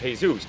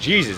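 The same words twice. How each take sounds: First: The name is said with Spanish pronunciation. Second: The name is said with English pronunciation. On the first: "The pronunciation of this though in Spanish is Jesus" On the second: "the pronunciation of this in the English would be Jesus"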